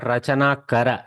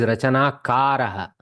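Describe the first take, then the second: First: The last word ends without an echoing 'ha'. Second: The last word ends with an echoing 'ha'. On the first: The speaker calls it wrong. "It is not Rachana Kara" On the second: The speaker calls it right. "it is Rachana Karaha"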